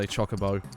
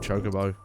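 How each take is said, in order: First: The first syllable does not sound like 'choke'. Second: The first syllable sounds like the word 'choke'. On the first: The speaker calls it right. "as I prefer to say" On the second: The speaker calls it wrong. "Don't like choke"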